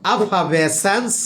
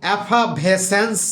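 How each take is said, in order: Both takes have the same delivery.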